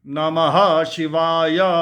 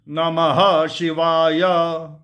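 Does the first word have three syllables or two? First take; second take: three; three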